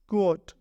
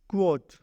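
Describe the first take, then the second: No difference in how they are said.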